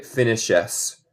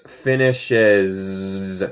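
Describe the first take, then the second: First: "finishes" said with a hissed s, the wrong way; "finishes" con s sorda, incorrecto; wrong s sound. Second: "finishes" with a buzzing z like a bee; buzzing z sound. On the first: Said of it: "No se dice finishes". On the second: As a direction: hum the s in "finishes" like a bee's z. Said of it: "se pronuncia esto como una abeja". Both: Shown as a demonstration.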